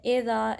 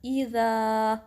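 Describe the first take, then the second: First: एज़ा with a loose open ए instead of a sharp ई; wrong pronunciation. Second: ईज़ा with a crisp hamza and a clear ई; correct sharp version. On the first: Teacher shows students the mistaken एज़ा to avoid. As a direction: say एज़ा sloppily, opening on ए. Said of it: "ऐसा नहीं पढ़ना". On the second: Teacher gives the correct ईज़ा after the wrong one. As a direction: snap the ई of ईज़ा cleanly from the throat. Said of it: "इसको sharp रखना है". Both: Shown as a demonstration.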